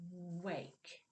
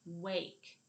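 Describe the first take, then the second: First: "Wake" with a long w at the start; drawn-out first sound. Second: Said in the usual way. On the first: Shown as a demonstration. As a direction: softly hold the w of "Wake", then finish the word. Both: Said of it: "We snipped off the w at the beginning of wake".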